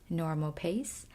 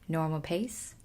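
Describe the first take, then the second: Both takes have the same delivery.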